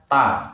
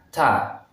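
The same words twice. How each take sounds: First: The t is released without a puff of air. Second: The t is released with a puff of air. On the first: The speaker calls it wrong. "Itu salah ya" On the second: The speaker calls it right. "Harusnya ta"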